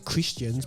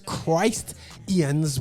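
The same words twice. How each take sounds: First: The first vowel is short, as in 'kiss'. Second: The first vowel is long, as in 'Christ'. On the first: "some of you may pronounce it as Christians" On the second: "I'm pronouncing it as Christians worlds. Christ like people"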